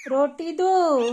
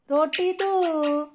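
First: Said in the usual way. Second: "रोटी दो" drawn out very slowly, syllable by syllable; slow teaching demo. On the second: Shown as a demonstration. Owner modelling words for the parrot, very slow drawn-out "रोटी दो". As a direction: stretch "रोटी दो" slowly so the bird can copy it. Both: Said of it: "mummy, रोटी दो".

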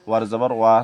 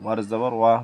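Both takes have the same delivery.

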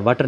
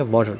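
First: "वाटर" with an unrounded a, like vatar; wrong "water" vowel. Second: "वाटर" with a rounded aw, like vawtar; rounded "water" vowel. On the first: Teacher showing students the misreading to avoid, unrounded "वाटर". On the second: Teacher giving students the correct reading, "वाटर" said as vawtar. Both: Shown as a demonstration. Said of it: "वाटर नहीं पढ़ेंगे".

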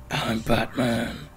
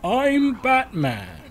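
First: Slow, drawn-out superhero impression; Batman. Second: High, loud, drawn-out superhero impression; Batman. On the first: Player mocking how the game's hero doesn't sound, drawn-out impression. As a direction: imitate a superhero, stretching out the words. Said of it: "his voice isn't like". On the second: Player showing how the game's hero sounds, high exaggerated impression. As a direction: pitch it way up and stretch it out loudly. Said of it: "It's more like".

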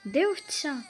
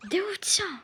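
First: Said in the usual way. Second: "Де овця?" whispered, breathy and higher. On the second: Real, not acted. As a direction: hush it right down. Asks, then whispers again. ("Де овця?" пошепки)

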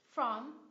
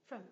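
First: "From" in full, stressed and loud; strong form. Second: "from" weak and very short, "frum"; reduced form. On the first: Teacher contrasting forms for learners, strong "From". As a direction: say "From" with a long open vowel. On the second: Teacher showing a reduced function word, weak "from". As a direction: say "from" with a quick schwa. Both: Shown as a demonstration. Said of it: "phần reduced trong một function word".

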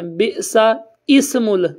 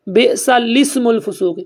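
First: بئسا اسم ال with the zer put on the alif; slow wrong اسم ال; wrong reading. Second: بئسا لسم الفسوق with لسم, alifs silent, slowly; slow correct لسم; correct reading. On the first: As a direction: show the mistake: اسم ال, slowly. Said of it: "وہ اس طرح پڑھتے ہیں". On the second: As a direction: recite بئسا لسم الفسوق, zer under the lam. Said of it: "یہ لفظ اس طرح پڑھا جائے گا". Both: Shown as a demonstration.

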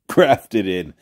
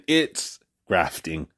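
First: "grafted in" with a clear -ed ending; corrected to grafted. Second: Says "grafting" slowly, ending in -ing; "grafting" drawn out slowly with -ing, then caught; misspoken grafting. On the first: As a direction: fixes it to "grafted", laughing lightly. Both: Shown as a demonstration.

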